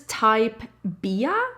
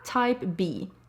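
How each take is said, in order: First: The last word ends with an extra 'uh' sound. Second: The last word is a single 'bee' sound. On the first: The speaker calls it wrong. "not Bia" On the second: The speaker calls it right. "Type B, not Bia"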